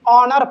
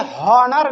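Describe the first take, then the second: First: The word begins directly with a vowel sound. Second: The word begins with an audible h sound. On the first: The speaker calls it right. "ऑनर पढ़ता है" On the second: The speaker calls it wrong. "हॉनर नहीं"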